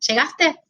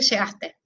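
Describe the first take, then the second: First: It is said with question intonation. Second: It is said with statement intonation. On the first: Asking whether the friend arrived. "le puedo preguntar" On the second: Stating that the friend arrived. "O le puedo decir"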